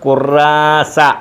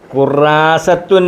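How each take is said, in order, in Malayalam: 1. ഈ വാക്ക് അവസാനത്തെ -tun ഇല്ലാതെയാണ് അവസാനിക്കുന്നത്. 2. ഈ വാക്ക് പൂർണ്ണമായ -tun എന്ന അന്ത്യത്തോടെയാണ് അവസാനിക്കുന്നത്. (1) "ഈ താഇന് ഉച്ചാരണം കൊടുക്കത്തില്ല" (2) "ഖുറാസത്തുൻ എന്നാണ്"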